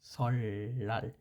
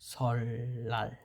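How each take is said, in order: Both takes have the same delivery.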